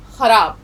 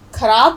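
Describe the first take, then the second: First: خراب with a throaty خ sound; خراب said with the rasping x; correct pronunciation. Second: خراب said as کھراب with an aspirated k; خراب with a hard kh, the wrong way; wrong pronunciation demo. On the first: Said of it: "لفظ ہوتا ہے". (خراب، خ کی صحیح آواز کے ساتھ) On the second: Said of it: "کوئی لفظ نہیں ہوتا". (خراب کو کھ کی آواز سے، غلط طریقے سے) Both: Shown as a demonstration.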